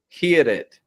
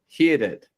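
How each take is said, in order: First: The R is rolled. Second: The R is rolled.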